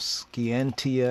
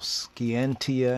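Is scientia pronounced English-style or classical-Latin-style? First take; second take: Latin-style; Latin-style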